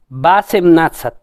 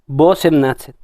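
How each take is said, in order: First: The first vowel sounds like 'a'. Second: The first vowel sounds like 'o'. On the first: The speaker calls it wrong. "en teoría, su pronunciación debería ser Basemnatsat, porque la O no está acentuada" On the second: The speaker calls it right. "Todos pronuncian Bosemnatsat"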